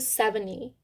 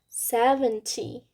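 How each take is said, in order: First: The t sound is dropped in fast speech. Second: The t sound is clearly pronounced.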